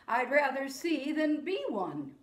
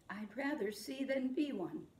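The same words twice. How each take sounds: First: Said in the usual way. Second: Soft echo. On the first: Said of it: "I'll say a line". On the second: Shown as a demonstration. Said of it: "you say it back to me".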